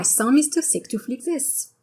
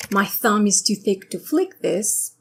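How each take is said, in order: First: French-accented English, th as s. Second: Said in the usual way. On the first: Shown as a demonstration. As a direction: say "thumb" as "sum" in a French accent. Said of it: "the French accent can completely change".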